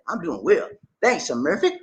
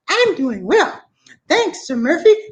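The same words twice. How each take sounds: First: It is said in his normal voice. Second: It is said in a put-on voice.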